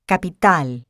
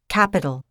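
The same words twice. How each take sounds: First: The first consonant has no puff of air. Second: The first consonant has a puff of air. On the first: "No such explosion of air occurs in Spanish" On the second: "with a small explosion of air"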